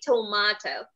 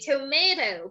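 First: The word is said with a British pronunciation. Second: The word is said with an American pronunciation. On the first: "But if you want to be a British, you can say tomato" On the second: "If you want to be American, you can say tomato"

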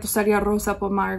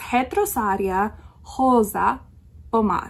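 First: The initial R sounds like an English R. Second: The initial R sounds like an H. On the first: The speaker calls it wrong. "we all want to say Retosaria Pomar or Retosaria Rosa Pomar" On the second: The speaker calls it right. "it's more like a H sound"

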